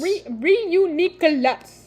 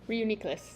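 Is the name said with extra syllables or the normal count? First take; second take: extra syllables; normal count. First: The name is said with extra syllables. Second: The name is said with its normal syllables. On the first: The speaker calls it wrong. "Now you added too many syllables" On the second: The speaker calls it right. "Did I say it right"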